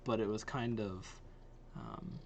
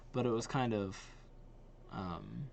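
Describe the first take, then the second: No difference in how they are said.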